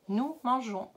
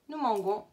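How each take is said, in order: First: The g is soft, like the j sound. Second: The g is hard, as in go. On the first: The speaker calls it right. "tu auras la bonne prononciation" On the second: The speaker calls it wrong. "ça fait nous mangons"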